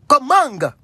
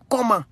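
First: It is said with a Cameroonian French accent. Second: It is said with a standard French accent. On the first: "le Camerounais dit Comang" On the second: "le mot comment, il n'y a pas G, c'est T"

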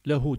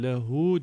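First: The final vowel is short. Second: The final vowel is drawn out long. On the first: The speaker calls it wrong. "lehu denmez" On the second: The speaker calls it right. "lehu diye uzatır"

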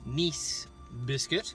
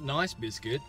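First: Nice is said with the vowel of 'niece'. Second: Nice is said with the vowel of 'ice'. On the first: It refers to the French place name. The speaker calls it right. "I think I'm pronouncing that right" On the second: It sounds like the English adjective. The speaker calls it wrong. "Not nice biscuit"

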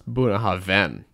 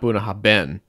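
First: The last part is said with a V sound. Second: The last part is said with a B sound. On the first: The speaker calls it right. "The BH makes a V sound" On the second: The speaker calls it wrong. "We've all been pronouncing it wrong"

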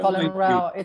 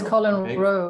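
First: The name rhymes with the word 'cow'. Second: The name rhymes with the word 'go'. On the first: The speaker calls it wrong. "It's not Colin Rowe. You can have a row with him" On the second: The speaker calls it right. "it is Colin Rowe"

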